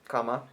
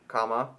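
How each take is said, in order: The two takes are said the same way.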